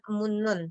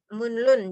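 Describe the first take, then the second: First: The middle consonants are both pronounced as n. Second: An n is followed by a distinct l. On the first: "kebanyakan nian" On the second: "Jadi niannya dibaca, realnya juga dibaca"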